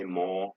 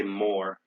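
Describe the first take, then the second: First: "more" as maw, no R; British "more", R dropped. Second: "more" with the R sounded; American "more", clear final R; American rhotic R. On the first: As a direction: say "more" with long vowel, silent R. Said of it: "they say more". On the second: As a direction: say "more" ending on a full R. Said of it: "we say more". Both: Shown as a demonstration.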